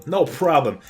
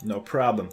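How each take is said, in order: First: "no problem" with a punched, louder NO; emphatic repeat. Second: Said in the usual way. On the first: Real, not acted. Gamer reassuring viewers mid-escape, emphatic "no problem".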